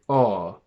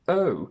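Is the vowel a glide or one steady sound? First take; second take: steady; glide. First: The vowel stays as one steady sound. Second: The vowel glides into a second oo sound. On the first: The speaker calls it wrong. "something like o, where there is only one sound" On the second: The speaker calls it right. "the diphthong o"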